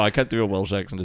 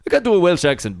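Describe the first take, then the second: First: It is said in the speaker's ordinary accent. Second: It is said in an attempted Welsh accent.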